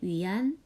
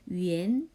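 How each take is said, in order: First: The word ends with an open 'an' sound. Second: The word ends with a closer 'en' sound. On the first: The speaker calls it wrong. "발음할 땐 위안이라고 하지 않고" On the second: The speaker calls it right. "위엔이라고 발음해요"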